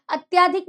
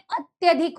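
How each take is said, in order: First: अत्याधिक said with a long आ after त्य, the wrong form; wrong spelling form. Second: अत्यधिक said with a short य and no long आ; correct form. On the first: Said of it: "अत्याधिक नहीं होता है". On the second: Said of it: "अत्यधिक होता है". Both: Shown as a demonstration.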